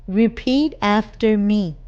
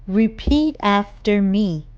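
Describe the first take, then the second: The two takes are said the same way.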